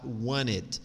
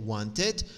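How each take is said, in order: First: "want it" joined as "wanit", T after N dropped; linked without T. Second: "want it" joined as "wanted", T sounded; linked with T. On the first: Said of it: "ou tu pode falar want it". ("want it" emendado como "wanit", sem o T) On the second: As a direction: link "want it" but keep the T after N. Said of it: "tu pode dizer want it". ("want it" emendado, mantendo o T: "wantit") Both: Shown as a demonstration.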